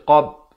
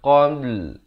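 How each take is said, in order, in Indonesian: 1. Kata itu berakhir dengan b, tanpa l. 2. Kata itu berakhir dengan b diikuti l. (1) "lam tak ada" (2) "Dia kena qabl"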